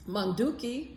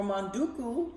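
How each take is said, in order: First: Manduki said with its last syllable ending in a clear i; Malagasy Manduki ending in i; Malagasy word with final i. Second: Manduku said with its last syllable ending in a clear u; Malagasy manduku ending in u; Malagasy word with final u. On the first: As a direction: say Manduki and land on the final i sound. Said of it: "which means to cook". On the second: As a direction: say manduku and land on the final u sound. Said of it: "which means to paint". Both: Shown as a demonstration.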